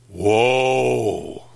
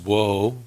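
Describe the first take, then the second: First: The word is said gravely and heavily. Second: The word is said lightly and casually. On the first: The speaker calls it right. "It sounds like this" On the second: The speaker calls it wrong. "It doesn't sound like this"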